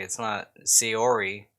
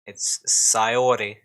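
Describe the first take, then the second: First: "Sayori" with an English R, slowly; wrong pronunciation. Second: "Sayori" slowly, the R as a tap between R and L; Japanese pronunciation. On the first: Vlogger showing the wrong way to say "Sayori", slow. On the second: Vlogger correcting "Sayori" to the Japanese tapped R, slow and louder. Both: Shown as a demonstration. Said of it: "because you don't say the fucking R".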